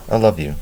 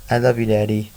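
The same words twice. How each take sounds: First: Lightly voiced father, in the narrator's own pitch; understated, simple declaration to a child; fatherly affection. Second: Lightly voiced little boy, higher pitch; a hint of a toddler, pitched up; small child's affection. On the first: Father to his little son, fatherly affection. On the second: Two-year-old to his father, small child's affection. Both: A narrator's reading.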